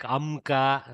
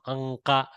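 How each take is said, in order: First: The nasal before k is an m sound. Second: The nasal before k is an ng sound. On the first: The speaker calls it wrong. "you won't be reading it like Amka" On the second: The speaker calls it right. "No, Anka, like that"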